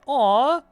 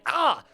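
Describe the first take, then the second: First: It is a soft, fond coo. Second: It is a sharp, pained cry. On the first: Something looks cute. "Or like you saw a cat" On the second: Something just hurt. "It's like you got hit in the shin"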